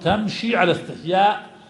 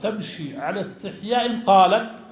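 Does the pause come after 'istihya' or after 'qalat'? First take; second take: after istihya; after qalat. First: The phrase stops right after 'istihya'. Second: The phrase runs on and stops after 'qalat'. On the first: The modesty is shown in how she walks. "اختلف علماء الوقف أين نقف، فقالوا تمشي على استحياء" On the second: The modesty is shown in how she speaks. "قال بعض العلماء الوقف قال تمشي على استحياء قالت"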